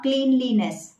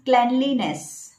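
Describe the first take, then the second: First: "cleanliness" as KLEEN-lee-ness, slowed; wrong pronunciation. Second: "cleanliness" as KLEN-lee-ness; correct pronunciation. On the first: Coach showing what to avoid, wrong pronunciation. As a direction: mispronounce "cleanliness" with a long ee. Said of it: "not cleanliness". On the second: Coach applying the same rule, correct pronunciation. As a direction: say "cleanliness" with a short e. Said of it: "That should be cleanliness". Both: Shown as a demonstration.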